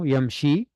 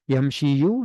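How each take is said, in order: First: The word ends without an added vowel. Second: The word ends with an added final vowel. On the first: The speaker calls it right. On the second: The speaker calls it wrong.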